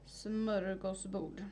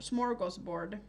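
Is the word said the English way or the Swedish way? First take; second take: Swedish; English. First: It is said with Swedish vowels and sounds. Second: It is said with English-style vowels and sounds. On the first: "smörgåsbord is the Swedish pronunciation" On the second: "you probably heard it in the smörgåsbord type of smor- smorgasbord um, pronunciation"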